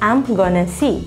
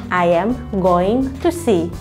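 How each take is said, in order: First: The words are shortened and run together. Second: Every word is said fully and clearly. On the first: "bila diperpendek" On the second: "bila diperjelas"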